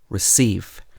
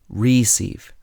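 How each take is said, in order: First: The stress is on the second syllable. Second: The stress is on the first syllable. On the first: The speaker calls it right. "You would say" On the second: The speaker calls it wrong. "you wouldn't say"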